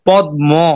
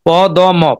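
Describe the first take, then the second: First: The d and m are merged into one cluster. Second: The d and m are said as separate sounds. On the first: The speaker calls it right. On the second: The speaker calls it wrong.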